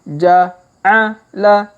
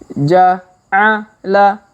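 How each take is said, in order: Both takes have the same delivery.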